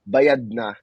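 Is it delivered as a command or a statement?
statement. It is delivered as a calm statement. The bill has already been paid. "that means it's already paid for"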